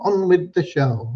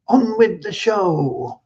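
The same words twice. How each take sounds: First: Slightly raised, brisker echo of the call; light showman's catchphrase. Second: High, drawn-out singsong announcement; showman's rallying call. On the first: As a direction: toss off the catchphrase lightly, without stretching it. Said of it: "they'd say". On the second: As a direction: imitate a cinema crowd's cry, stretching the words. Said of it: "at the end of the sing-song, they'd say". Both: Retold or imitated.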